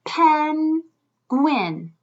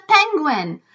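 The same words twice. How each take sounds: First: Penguin split with a clear gap; higher, drawn-out pen, then gwin; syllable by syllable. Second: Said in the usual way. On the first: Shown as a demonstration. Teacher counting syllables with children, split apart. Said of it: "Let's feel it and count his syllables".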